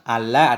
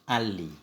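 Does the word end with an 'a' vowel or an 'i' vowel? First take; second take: a vowel; i vowel. First: The final consonant is followed by an 'a' vowel. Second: The final consonant is followed by an 'i' vowel. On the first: "dengan fathah lam" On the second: "dan kasrahnya lam"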